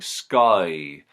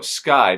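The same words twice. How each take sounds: First: The vowel in 'sky' stretches into two syllables. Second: The vowel in 'sky' is a single syllable.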